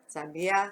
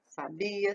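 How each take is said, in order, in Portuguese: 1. A sílaba tônica é a última. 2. A sílaba tônica é a do meio. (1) "o A vai lá em cima" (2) "o bi"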